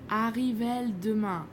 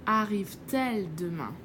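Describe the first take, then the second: First: The two vowels meet with no sound between. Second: A t sound joins the two vowels. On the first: The speaker calls it wrong. "that's very strange" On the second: The speaker calls it right. "we put a T so the pronunciation is smoother"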